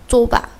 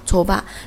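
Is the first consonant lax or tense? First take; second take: tense; lax. First: The first consonant is tense and tight. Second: The first consonant is soft and lax. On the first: "所以会读成紧音" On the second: "本来按照松音的读法应该是좁아"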